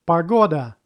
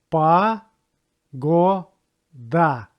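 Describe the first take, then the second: First: Said in the usual way. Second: Погода very slowly as "pa... GO... da"; syllable by syllable. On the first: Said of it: "stress goes to second one". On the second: Shown as a demonstration. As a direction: break Погода into three long, separate syllables. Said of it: "This word has three syllables".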